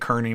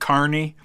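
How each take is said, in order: First: The first syllable sounds like 'keer'. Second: The first syllable sounds like 'car'. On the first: This is how the speaker usually says the name. "I say Kearney most of the time" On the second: This is how many people say the name. "a lot of people pronounce it Carney"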